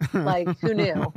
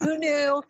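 First: Slow, deadpan "who knew"; dry aside. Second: Higher, exclaimed "who knew"; mock amazement. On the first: Deadpan joke to the interviewer, slow and dry. Joking she's now officially bi. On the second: Repeating her joke to the host with mock amazement. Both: Real, not acted.

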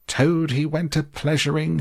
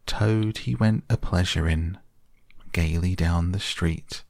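First: Much higher, furious yell on Toad. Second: Lightly raised, mock-singing weasel; a hint of a squeaky Chief Weasel crooning; high squeaky voice. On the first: Acted. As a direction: hurl the weasels' song back at them. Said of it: "he yelled". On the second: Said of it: "began in a high, squeaky voice".

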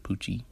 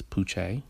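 First: "Poochie" ending in -ee, like "poo-chee"; ordinary English ending. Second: "Poochie" ending in -ay, like "poo-shay"; French-sounding pronunciation. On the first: Host jokingly correcting his nickname, "Poochie" with -ee ending. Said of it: "not Poochie". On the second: Host introducing his nickname, French-sounding ending. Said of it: "It sounds French". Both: Shown as a demonstration.

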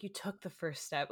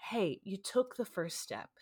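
First: Quieter, tender encouragement; softer reassurance. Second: Gentle, kind reassurance; sweet encouragement. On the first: Receptionist soothing crying patient, softer and tender. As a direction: say it softly, comforting. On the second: Receptionist comforting crying patient, gently. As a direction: encourage her kindly. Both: Retold or imitated. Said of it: "couldn't have been sweeter with me".

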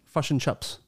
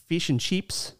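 First: New Zealand "uh" vowels in "fish and chips"; New Zealand accent. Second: Australian long "ee" in "fish and chips"; Australian accent. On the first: Co-host contrasts two accents, New Zealand "uh" vowels. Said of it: "And New Zealand is". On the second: Co-host contrasts two accents, Australian "ee" vowels. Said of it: "I believe Australian is". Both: Shown as a demonstration.

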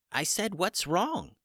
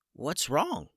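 First: High and slow, spelling it out again; chicken repeating himself. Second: A higher, light little chicken voice, puzzled; a hurt chicken asks innocently; small chicken voice. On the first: Chicken repeats his question slowly to the startled wizard. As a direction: repeat it patiently for the stunned man. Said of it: "replied Hummus". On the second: Hurt little chicken asks the shocked wizard, puzzled high voice. Chicken Hummus first speaks. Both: Acted.

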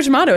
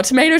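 First: "tomato" as tuh-MAH-toh; louder, higher "tomato", middle vowel as in father; second pronunciation variant. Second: "tomato" as tuh-MAY-toh; louder, higher "tomato", middle vowel as in day; first pronunciation variant. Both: Shown as a demonstration. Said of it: "No, no, it's not that".

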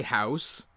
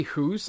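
First: "house" with an ow diphthong; real Canadian "house". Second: "hoose" with a long oo; mock Canadian vowel. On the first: Co-host showing what he says, natural ow vowel. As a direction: say "house" with ow, not oo. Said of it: "I say". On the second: Co-host showing what he doesn't say, oo vowel. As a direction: say "hoose" to rhyme with goose. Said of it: "And I don't say". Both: Shown as a demonstration.

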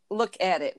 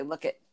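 First: "Look at it" with the AT fully sounded; careful "look at it". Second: "Look it" as two quick syllables, no AT; casual "Look it", said lower and softer; colloquial "look it". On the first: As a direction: give all three words of "Look at it". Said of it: "We're supposed to say". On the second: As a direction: drop low on a clipped-together "Look it". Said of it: "We don't say". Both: Shown as a demonstration.

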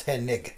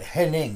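First: "Hennig" ending in a hard g; "Hennig", second syllable like "nig" in "renig". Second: "Henning" ending in a soft ng sound; "Henning", no hard g at the end; Henning with -ing. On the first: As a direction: say "Hennig" with -ig, no n before the g. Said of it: "that wasn't Henning". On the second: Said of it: "that was Hennig". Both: Shown as a demonstration.

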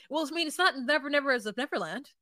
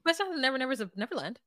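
First: Said in the usual way. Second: Rattled off fast. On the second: Retold or imitated. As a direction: rush "Never Nevers of Neverland" together in one quick breath. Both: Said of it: "She says it so fast".

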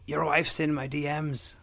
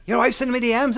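First: Slow, level mock taunt. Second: Higher, much louder yelled taunt. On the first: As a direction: drawl the threat calmly. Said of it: "Conor's a dick". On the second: Retold or imitated. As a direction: scream the taunt. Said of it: "I get he was mad".

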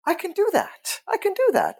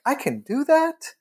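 First: Very high, delighted exclamation; excited realization. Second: High rising disbelief; sudden realization, voice leaping up at the end; amazed realization. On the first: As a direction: voice shoots up as it sinks in. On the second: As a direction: say it as a dawning, high-pitched question. Acted sudden realization on stopping. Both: Retold or imitated.

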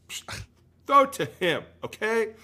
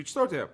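First: Loud and high, throw it to him in disbelief; exasperated shout. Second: Said in the usual way. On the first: Retold or imitated. Ranting about the coach, an exasperated shout. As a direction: bark it out like a fed-up fan. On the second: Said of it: "be able to be like".

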